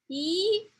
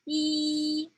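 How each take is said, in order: First: The pitch rises from lower to higher. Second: The pitch stays high and level. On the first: "the second tone, like let's going up, like you're climbing up a ladder" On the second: "For the first tone, there is a high level"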